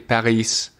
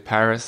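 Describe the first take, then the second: First: It is said with a French pronunciation. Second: It is said with an English pronunciation. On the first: "French people say Paris" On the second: "English people say Paris"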